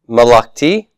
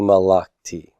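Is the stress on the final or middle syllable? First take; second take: final; middle. First: The stress is on the final syllable. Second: The stress is on the middle syllable.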